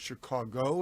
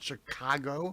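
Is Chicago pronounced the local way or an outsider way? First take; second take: local; outsider. First: It is said with the local native pronunciation. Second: It is said with a non-local outsider pronunciation. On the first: The speaker calls it right. "pronounced the right way, which is Chicago" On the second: The speaker calls it wrong. "not Chicago"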